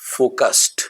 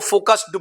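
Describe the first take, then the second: First: The ending is said as a short t. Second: The ending is said as an extra syllable. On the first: The speaker calls it right. "Right pronunciation is फोकस्ड" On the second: The speaker calls it wrong. "लोग इसको फोकस्ड बोलते हैं, जो कि wrong pronunciation है"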